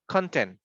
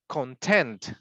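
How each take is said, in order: First: The stress is on the first syllable. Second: The stress is on the second syllable.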